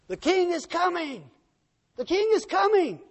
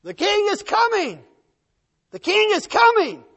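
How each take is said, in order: First: High herald's cry, moderately loud; distant marchers yelling. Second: Very high, full-force herald's shout; louder and louder yelling. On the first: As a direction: call out as an approaching army. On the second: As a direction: roar it as the army draws close. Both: Acted. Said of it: "as it got louder and louder".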